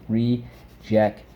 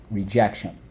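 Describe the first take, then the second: First: Rejection slowly broken into re... jec... tion; syllable by syllable. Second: Said in the usual way. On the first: Shown as a demonstration. Teacher repeating rejection for the class, syllable by syllable. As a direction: pause between the syllables of rejection. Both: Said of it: "Let's go".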